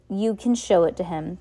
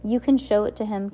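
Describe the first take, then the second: First: Angry, louder. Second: Mild anger. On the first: Captain Sham cutting off the orphans, angrily louder. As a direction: voice rising in anger, louder. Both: Acted. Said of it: "his voice rising in anger".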